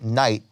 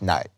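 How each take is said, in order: First: The vowel glides as a diphthong. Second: The vowel is a flat Southern monophthong.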